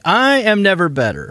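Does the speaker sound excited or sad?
excited. The voice sounds lively, cheerful and excited. The speaker calls it right. "How's that? Is that better?"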